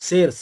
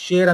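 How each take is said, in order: First: The word begins with a plain s sound. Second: The word begins with an sh sound. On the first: This is how villagers say it in their dialect. "ಸೇರ್ ಸೇರು ಸೇರು ಅಂತಾರೆ ... ಹಳ್ಳಿ ಭಾಷೆಯಲ್ಲಿ ಆ ತರ ಉಚ್ಚಾರಣೆ ಮಾಡ್ತಾರೆ" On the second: This is the standard form, not the village one. "ಅಲ್ಲೆಲ್ಲ ಶೇರ್ ಅನ್ನಲ್ಲ"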